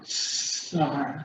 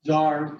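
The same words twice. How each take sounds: First: Tsar breathed out long and soft; hissed Tsar. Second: Tsar said with a buzzing ts onset; Russian Tsar sound. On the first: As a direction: let Tsar fade into a quiet hiss. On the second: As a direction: start Tsar with a hissed ts. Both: Shown as a demonstration. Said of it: "or like the Russian".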